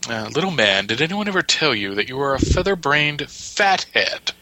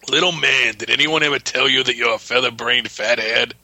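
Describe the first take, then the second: First: The voice is smooth, not gravelly. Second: The voice is gravelly and rough. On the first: The character sounds like a bookish intellectual. "when you do it in that voice, it's completely different than what I read" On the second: The character sounds like a tough brute. "I had a gravelly, more palooka voice"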